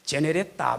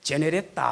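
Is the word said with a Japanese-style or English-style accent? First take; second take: Japanese-style; Japanese-style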